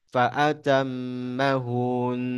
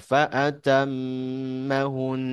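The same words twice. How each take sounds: First: An extra long u is added before the n. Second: The u before the n stays short. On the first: The speaker calls it wrong. "itu nambah waw" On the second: The speaker calls it right. "Jadi fa yang langsung berarti fa'atammahun"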